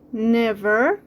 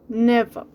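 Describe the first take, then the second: First: The final R sound is clearly pronounced. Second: The final R sound is dropped entirely.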